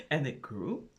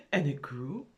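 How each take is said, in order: Both takes have the same delivery.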